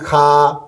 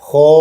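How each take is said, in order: First: The letter is said thin and light. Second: The letter is said thick and heavy. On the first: The speaker calls it wrong. "एक बार बारीक पढ़ता हूँ ताकि आपको फ़र्क पता चल जाए। बारीक किस तरह खा" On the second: The speaker calls it right. "कैसे पढ़ेंगे? खो"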